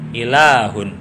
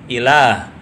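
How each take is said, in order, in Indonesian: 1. Bunyi h diikuti oleh -un. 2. Kata itu berhenti pada bunyi h. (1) "diwasolkan pun berbunyi suara hak" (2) "Ketika hak ini dibaca waqaf, maka berbunyi suara hak"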